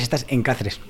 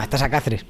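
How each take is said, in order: First: "estás en Cáceres" with a clear "en" before Cáceres; Castilian phrasing. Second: "estás a Cáceres" with a plain, light "a" where Castilian uses "en"; Extremaduran phrasing. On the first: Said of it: "en castellano dirías". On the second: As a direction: say "a Cáceres" as a native Extremaduran speaker would. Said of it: "No estás, en castellano dirías". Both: Shown as a demonstration.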